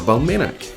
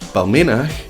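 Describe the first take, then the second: First: The final ch is a hard K sound. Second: The final ch is a soft throaty sound. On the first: "it can be hardened to a K" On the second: "in Scots it would be"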